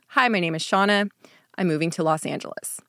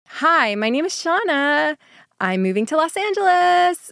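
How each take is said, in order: First: The voice falls at the end of each sentence. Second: The voice rises at the end of each sentence. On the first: The statements come across as firm and final. "Instead of" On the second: The statements come across like questions. "upward inflection while speaking... they sound sort of like a question"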